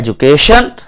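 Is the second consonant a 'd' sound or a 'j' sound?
j sound. It is said with a 'j' sound, British style.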